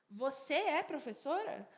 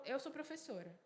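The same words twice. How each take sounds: First: "Você é professora?" pitched up as a question; question intonation. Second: Said in the usual way. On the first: Shown as a demonstration. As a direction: turn "Você é professora?" into a question by tune alone. ("Você é professora?" com entonação de pergunta) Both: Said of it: "A gente só usa a entonação".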